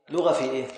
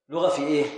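Both takes have the same delivery.

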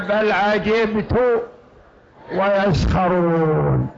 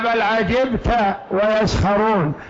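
First: The verb ends with a 'u' vowel. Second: The verb ends with an 'a' vowel. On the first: The speaker himself is the one who wondered. "من الذي يعجب هنا؟ الله تبارك وتعالى" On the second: The listener is the one who wondered. "بل عجبت يا محمد ويسخرون المشركون"

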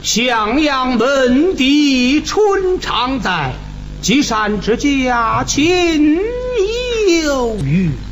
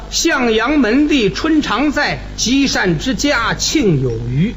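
First: Each syllable is drawn out with strong nasal resonance. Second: It is spoken plainly with little nasal resonance. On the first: "你看这个鼻腔共鸣就用了" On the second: "你看这么说起来，好像共鸣用处不大"

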